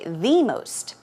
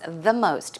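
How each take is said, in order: First: The word 'the' is stressed and drawn out. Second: The word 'the' is said lightly, unstressed. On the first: "the reason I said the most is just to stress it" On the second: "The proper way of saying it"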